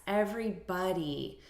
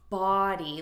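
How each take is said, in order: First: "everybody" ending like "buddy"; reduced vowel pronunciation. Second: "body" said as spelled, with a full open O; spelling pronunciation. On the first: Teacher correcting the spelling pronunciation, "everybody" with reduced vowel. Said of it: "like the spelling suggests". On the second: Teacher showing learners what it's not, "body" as spelled. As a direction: stress a full "BAH-dee" in "body". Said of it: "So it's not body like the spelling suggests". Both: Shown as a demonstration.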